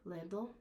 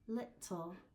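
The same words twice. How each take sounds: First: It has a voiced D-like middle sound, American style. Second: It has a voiceless T middle sound, British style.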